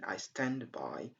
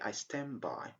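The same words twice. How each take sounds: First: The D at the end of stand is clear. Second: The D at the end of stand is dropped. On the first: "Instead of saying I stand by" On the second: "We drop the sound D at the end"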